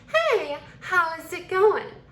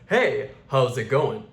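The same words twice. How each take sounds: First: It is said in a feminine voice with long S. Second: It is said in a masculine voice with short S.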